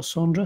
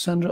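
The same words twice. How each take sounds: First: Sandra with a long open A, like Sondra; alternative name pronunciation. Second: Sandra with a short flat A, as in sand; alternative name pronunciation. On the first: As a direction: say Sandra as SAHN-druh. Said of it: "pronounced Sandra or Sandra". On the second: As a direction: say Sandra as SAN-druh. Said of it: "I don't know if it's pronounced". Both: Shown as a demonstration.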